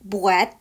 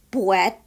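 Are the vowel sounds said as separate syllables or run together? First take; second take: run together; run together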